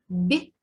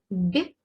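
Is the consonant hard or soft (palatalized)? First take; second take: soft; soft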